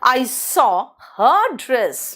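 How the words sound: The stress falls on the word her. The dress belonged to her specifically. "हर लगाया तो समझ में आ गया कि हर का।"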